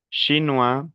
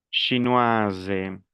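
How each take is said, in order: First: "chinois" ending on an open wa; silent final S. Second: "chinoise" falling to a voiced z; sounded S. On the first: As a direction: leave the s off "chinois". ("chinois" sin la s final) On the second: ("chinoise" pronunciando la s) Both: Shown as a demonstration. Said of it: "las dos primeras pronunciaciones son normales".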